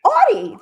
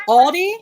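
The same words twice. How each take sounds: First: Audi said like the car brand, OW-dee. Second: Aldi said like the grocery store, AHL-dee; wrong pronunciation. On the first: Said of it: "like the car". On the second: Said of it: "She said it was Aldi". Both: Shown as a demonstration.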